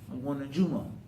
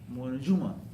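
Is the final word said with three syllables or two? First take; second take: two; two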